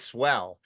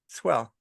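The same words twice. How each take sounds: First: The word is said with enthusiastic, lively tone. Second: The word is said with flat, unenthusiastic tone. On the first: Something is truly amazing. "you see something that's amazing" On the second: Things are not actually going well. "you're not having a great day"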